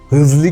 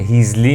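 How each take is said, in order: First: The first vowel is a short, central 'e'-like sound. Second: The first vowel is a clear, front 'ee' sound. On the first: The speaker calls it right. "چون درستش اینه" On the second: The speaker calls it wrong. "هیزلی نیست"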